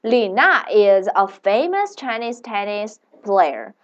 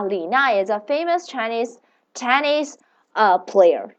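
First: Slow, careful English sentence; slow model sentence. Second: Said in the usual way. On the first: Shown as a demonstration. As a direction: read it slowly for learners. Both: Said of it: "let's make a sentence".

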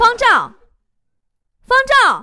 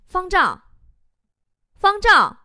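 First: High, loud, impatient name-calling; exasperated shout. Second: Teacher calling out a name, high; roll-call shout. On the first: Teacher calls unanswered student once more, shouting in exasperation. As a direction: yell the name, at the end of your patience. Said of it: "老师就急眼了". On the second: Teacher takes roll in first-year class, calling out. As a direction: call the name and wait for an answer. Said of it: "老师点名喊了几声". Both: Acted.

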